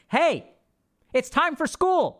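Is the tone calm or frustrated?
frustrated. It is said in a frustrated, raised voice.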